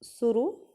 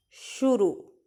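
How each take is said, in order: First: शुरू with s and short u sounds; शुरू said as suru, quick and light; wrong reading. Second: शुरू with sh and a long final oo; शुरू said as shuroo, the last vowel held; correct reading. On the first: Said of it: "इसे हम उच्चारण जल्दी करेंगे". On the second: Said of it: "रू की मात्रा का देर तक होगा". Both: Shown as a demonstration.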